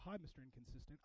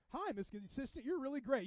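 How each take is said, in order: First: Low, muttered awkward hello; half-hearted, much softer greeting. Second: Mock-friendly, lifted hello; lightly hammed-up flattering welcome; gushing greeting. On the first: Acted. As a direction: greet them quietly and uneasily. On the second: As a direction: greet them with put-on approval. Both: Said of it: "give you a weird side hug to go".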